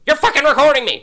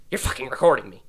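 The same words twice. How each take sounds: First: High, loud shriek of accusation; screaming Karen. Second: Firm accusing teacher, not yet yelling; accusing Karen. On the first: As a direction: scream it at him like an outraged Karen. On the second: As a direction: start the accusation, still contained. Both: Retold or imitated. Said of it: "She's like a Karen".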